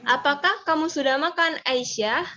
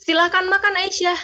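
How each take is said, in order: First: "makan" a bit high, then falls on "Aisyah"; question intonation. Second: Higher, firm order with a falling end on "Aisyah"; command intonation. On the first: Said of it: "nadanya agak tinggi". (nada agak tinggi lalu turun ke rendah) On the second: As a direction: say it as a firm order, pitched high. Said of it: "kalau misalnya pakai tanda seru". (intonasi perintah, nada tinggi dan tegas) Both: Shown as a demonstration.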